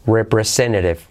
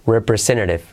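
Both takes have the same delivery.

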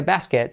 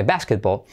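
First: Basket cut short, as Spaniards say it; wrong English term. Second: Basketball as BAS-ket-bol, stressed at the front; English pronunciation. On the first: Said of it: "no se le dice basket". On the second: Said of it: "sino se dice basketball". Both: Shown as a demonstration.

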